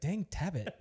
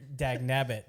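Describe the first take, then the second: First: The second word begins with a t sound. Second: The second word begins with an n sound. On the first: It repeats a child's mistaken version. The speaker calls it wrong. "of course she said it wrong" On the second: It gives the real expression. The speaker calls it right. "No, you're dag nabbit"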